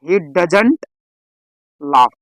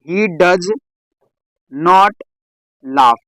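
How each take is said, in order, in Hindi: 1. 'Does' और 'not' मिलकर एक संकुचित (contracted) शब्द बन जाते हैं। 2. 'Does' और 'not' अलग-अलग शब्दों की तरह बोले जाते हैं।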